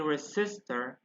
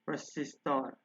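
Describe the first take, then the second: First: It is pronounced with English sounds. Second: It is pronounced with Spanish sounds. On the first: "In English would be" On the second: "however in Spanish is"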